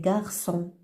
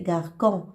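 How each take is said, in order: First: The middle consonant is a soft S sound. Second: The middle consonant is a hard K sound. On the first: The speaker calls it right. "C'est garçon" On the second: The speaker calls it wrong. "on va prononcer garcon. Et c'est faux"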